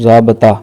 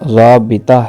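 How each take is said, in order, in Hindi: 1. 'b' के बाद का स्वर 'a' की आवाज़ है। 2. 'b' के बाद का स्वर 'i' की आवाज़ है। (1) "लफ्ज़ बोलते हैं" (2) "बा के नीचे ज़ेर है"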